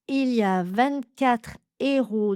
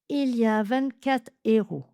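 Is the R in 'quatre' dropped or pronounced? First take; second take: pronounced; dropped. First: The R in quatre is clearly pronounced. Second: The R in quatre is not pronounced. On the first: "avec le R" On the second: "ou bien"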